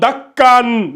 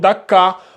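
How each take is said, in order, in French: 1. Le mot se termine par un son n. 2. Le mot se termine par une voyelle a longue. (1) "on ne va pas lire dakkan" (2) "on remplace ce dernier-là par le mad bil alif"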